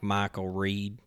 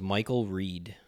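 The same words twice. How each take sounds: First: It is said in a Texas drawl. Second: It is said in a neutral accent.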